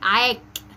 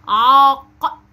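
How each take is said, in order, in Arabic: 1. تنتهي بصوت ك أمامي خفيف. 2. تنتهي بصوت ق خلفي عميق. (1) "ما قلتش ايه عاك كده بالكاف" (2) "ده بالقاف بفخمها"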